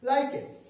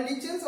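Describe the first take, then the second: First: Lichens said LIKE-ens, with a K; preferred pronunciation. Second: Lichens said LITCH-ens, with a CH; alternative pronunciation. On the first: Teacher naming the syllabus topic, lichens with a K sound. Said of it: "You pronounce it as like the lichens". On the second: Teacher giving the other name, lichens with a CH sound. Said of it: "or lichens also it is called". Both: Shown as a demonstration.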